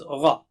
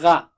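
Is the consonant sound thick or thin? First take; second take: thick; thin. First: The consonant is pronounced thick and high. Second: The consonant is pronounced thin and light. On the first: The speaker calls it right. "It is Gha" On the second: The speaker calls it wrong. "you should not say Gha"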